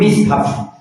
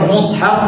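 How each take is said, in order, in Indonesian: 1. Vokal pertama adalah i. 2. Vokal pertama adalah u. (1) "boleh kedua" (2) "boleh kedua"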